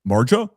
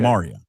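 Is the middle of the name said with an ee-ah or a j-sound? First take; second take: j-sound; ee-ah. First: The middle is said with a j-sound. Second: The middle is said as ee-ah. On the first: Other people misread the name from its spelling. The speaker calls it wrong. "when people see her, they're" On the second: This is how the name is really said. The speaker calls it right. "her full name is"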